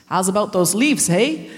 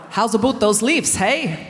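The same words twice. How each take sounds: First: Attempted Canadian accent. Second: Put-on fuller Canadian accent with "about" rounded. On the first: Comedian mimics nasty church elders, shaky attempt at Canadian accent. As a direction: have a first go at a Canadian accent. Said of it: "managed to make this accent". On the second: Comedian retries the elders' line, stronger Canadian accent. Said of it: "I haven't said that right".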